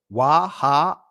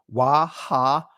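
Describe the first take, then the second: No difference in how they are said.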